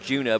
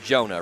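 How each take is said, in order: First: The name is said as Juna. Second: The name is said as Jonah. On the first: The speaker calls it wrong. "I pronounced it Juna" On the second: The speaker calls it right. "it's pronounced Jonah"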